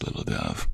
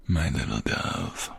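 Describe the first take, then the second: First: Much lower, mock-solemn "little dove"; teasing nickname. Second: Tender pet name. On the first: Husband teasing his wife with her nickname, low and mock-serious. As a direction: drop the voice low to tease. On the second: Acted.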